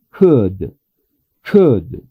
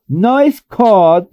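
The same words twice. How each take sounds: First: "Could" with a short relaxed U. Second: "could" said wrongly with a stretched O vowel; slow, drawn-out wrong "could". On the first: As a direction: say "Could" with lips unrounded. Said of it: "deberíamos de pronunciar de esa forma". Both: Shown as a demonstration.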